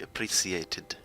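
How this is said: It is said with a British pronunciation.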